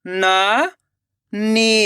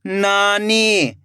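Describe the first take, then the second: First: नानी split into ना, long pause, नी; rising ना, then नी alone; syllable by syllable. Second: नानी joined as one slow word; blended word. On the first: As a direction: sound out नानी very slowly in two parts. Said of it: "एक एक अक्षर का उच्चारण करना है". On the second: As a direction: read नानी whole, falling at the end. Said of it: "खींच के पढ़ना है". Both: Shown as a demonstration.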